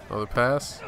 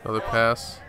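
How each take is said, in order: Both takes have the same delivery.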